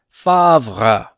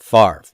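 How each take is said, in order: First: The R sound comes after the V. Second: The R sound comes before the V. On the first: This is how it is said in France. "they would pronounce it in France as favre" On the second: This is how Americans say it because it is easier. "We put that R before the V"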